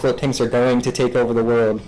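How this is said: It is said flatly, with weak emphasis. The claim is unremarkable. "there's like weaker words I could choose"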